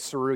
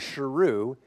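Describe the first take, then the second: First: The name begins with a plain 's' sound. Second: The name begins with an 'sh' sound. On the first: This is the mistaken form of the name. The speaker calls it wrong. "he had been mispronouncing his name the whole entire time" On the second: This is the true name, meaning lion. The speaker calls it right. "There was an H"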